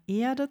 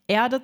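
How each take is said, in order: First: "Erde" with long closed e, r dropped; crisp stage "Erde", long clean e; crisp stage german. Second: "Erde" with a vocalic r, Eahde; everyday Erde. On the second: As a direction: soften the r in "Erde". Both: Shown as a demonstration. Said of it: "der Endgegner in meiner Ausbildung".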